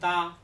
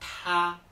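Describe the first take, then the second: First: The t is said without a puff of air. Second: The t is said with a strong puff of air. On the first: The speaker calls it wrong. "no será ta" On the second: The speaker calls it right. "echando mucho aire"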